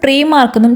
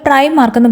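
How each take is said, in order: First: The first vowel sounds like 'ee'. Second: The first vowel sounds like 'eye'. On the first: This is the German reading of the name. "Germans പ്രീ മാർക്കെന്നും" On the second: This is how some other people say it. "ചിലർ പ്രൈം മാർക്കെന്നും"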